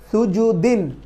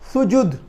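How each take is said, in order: First: The word ends with an added '-in' sound. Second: The word ends on a bare 'd' consonant. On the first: The word continues without a stop. "কি দুই জের তানবিন, তখন কিভাবে উচ্চারণ করব?" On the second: The reader stops at the end of the word. "সাকিন করে মিলিয়ে নিতে হবে"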